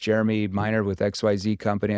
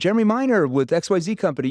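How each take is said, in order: First: It is said in a flat, monotone tone. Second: It is said in a warm, familiar, casual tone. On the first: The caller sounds like a telemarketer. The speaker calls it wrong. "I sound like a telemarketer that's monotone" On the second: The caller sounds like someone already known. The speaker calls it right. "I sound familiar"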